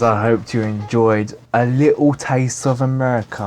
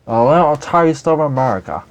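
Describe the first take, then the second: First: Said in the usual way. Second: Hammed-up American accent, louder; bad American accent. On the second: Shown as a demonstration. Signing off to his viewers in a bad American accent. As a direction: put on a terrible American accent for "A little taste of America". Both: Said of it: "That was a terrible accent".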